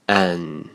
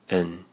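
First: The vowel is full and clearly stressed. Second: The vowel is reduced and weakly spoken. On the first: "强读式" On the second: "弱读式"

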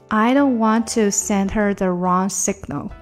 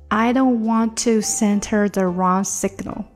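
The two takes are said the same way.

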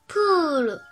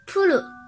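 First: The vowel is held long. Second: The vowel is cut short. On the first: The speaker calls it right. "乌段加乌，延长音部分也是发音发乌" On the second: The speaker calls it wrong. "延长音没念好的话就会变成"

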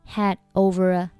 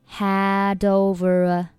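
First: The final d is not pronounced at all. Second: The final d links smoothly into the next word. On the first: "如果你选择had 末尾的不发音" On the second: "你选择had 和over 连读的话"

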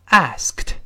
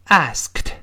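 The two takes are said the same way.

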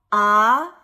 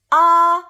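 First: The pitch rises from mid to high. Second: The pitch stays high and level. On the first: "3 到5 的阳平" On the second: "5 到5 的阴平"

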